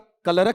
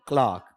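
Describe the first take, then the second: First: It is split into extra syllables with added vowels. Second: It has one syllable with a long 'ah' vowel. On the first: The speaker calls it wrong. "कलरक नहीं" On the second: The speaker calls it right. "बल्कि क्लार्क"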